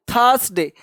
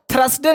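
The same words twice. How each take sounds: First: "थर्सडे" as thaas-day with only a partial R; corrected pronunciation. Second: "थर्सडे" as thrus-day, R right after TH; mistaken pronunciation. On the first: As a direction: say "था" then "सडे" in "थर्सडे". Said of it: "आर का sound partial होगा". ("थर्सडे" में र आधा, "थासडे" जैसा) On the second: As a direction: run TH into a full R in "थर्सडे". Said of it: "इसको थर्सडे नहीं बोलना है". ("थर्सडे" को "थ्रसडे" जैसा, गलत उच्चारण) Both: Shown as a demonstration.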